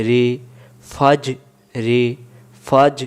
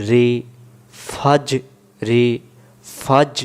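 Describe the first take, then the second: The two takes are said the same way.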